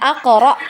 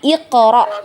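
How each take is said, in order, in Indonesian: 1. Kata ini diawali dengan vokal 'a'. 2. Kata ini diawali dengan vokal 'i'. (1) "bukan kita baca aqra" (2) "tapi iqra"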